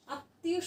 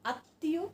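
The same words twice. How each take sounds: The two takes are said the same way.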